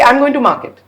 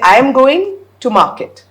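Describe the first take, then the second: First: There is no pause before 'market'. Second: There is a pause before 'market'. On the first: The speaker is going to sell something. The speaker calls it wrong. "Rather than say" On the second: The speaker is going to the marketplace. The speaker calls it right. "Because I've broken it up"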